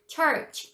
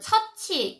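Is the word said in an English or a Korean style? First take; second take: English; Korean. First: The ch sounds are English, with lips pushed forward. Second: The ch sounds are flat Korean sounds. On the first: The speaker calls it right. "church 하셔야 되고요" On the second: The speaker calls it wrong. "우리 한글 치읓처럼 발음하시면 안 돼요"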